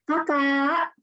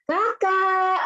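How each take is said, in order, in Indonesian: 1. Panggilannya diucapkan dengan tenang dan nada biasa. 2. Panggilannya diucapkan lebih keras dengan nada lebih tinggi.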